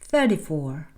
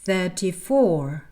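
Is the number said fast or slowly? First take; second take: fast; slowly. First: The number is said quickly. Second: The number is said slowly. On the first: "puis d'accélérer" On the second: "parler lentement au départ"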